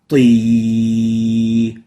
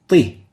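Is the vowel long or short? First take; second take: long; short. First: The vowel is held long. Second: The vowel is cut short. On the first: It is a ta followed by a ya. "Kasra is similarly a ta plus a ya" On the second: It is a ta with a kasra. "if we shorten the ya, it will sound like the kasra"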